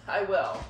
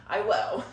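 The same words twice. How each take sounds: The two takes are said the same way.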